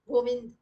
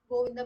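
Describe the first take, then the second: First: The final vowel is dropped. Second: The final vowel is short. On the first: The speaker calls it wrong. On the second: The speaker calls it right.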